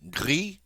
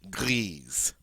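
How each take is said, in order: First: No final consonant sound is heard. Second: A final Z sound is heard. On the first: The color describes a masculine noun. "We don't pronounce the final S" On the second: The color describes a feminine noun. "it gives me permission now to pronounce the S"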